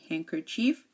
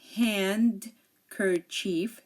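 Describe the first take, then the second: First: The D is silent. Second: The D is clearly sounded. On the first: The speaker calls it right. "No, we say handkerchief" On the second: The speaker calls it wrong. "We don't say handkerchief"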